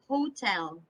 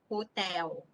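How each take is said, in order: First: The final L sound is clearly pronounced. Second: The final L sound is changed, not pronounced. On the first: The speaker calls it right. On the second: The speaker calls it wrong.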